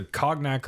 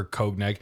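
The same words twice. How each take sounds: First: "cognac" said as KAHG-nak; "cognac" with a short o in the first syllable. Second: "cognac" said as KOHG-nak; first syllable CONE. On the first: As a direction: say "cognac" with an open "ah", like cog. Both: Shown as a demonstration. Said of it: "how you say this word".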